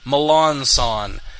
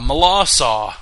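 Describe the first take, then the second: First: The name ends with a 'son' sound. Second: The name ends with a 'saw' sound. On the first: "he tells people to say Melanson" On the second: "apparently the pronunciation is Malasaw"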